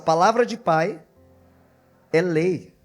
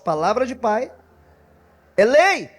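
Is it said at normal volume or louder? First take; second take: normal; louder. First: It is said at a normal volume. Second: It is said louder and more forcefully.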